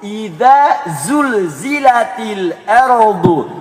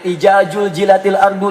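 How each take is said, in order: First: The consonants are pronounced as z sounds. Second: The consonants are pronounced as j sounds. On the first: The speaker calls it right. "Yang benar" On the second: The speaker calls it wrong. "ada yang ijajul jilatil ardu dijilat-jilat"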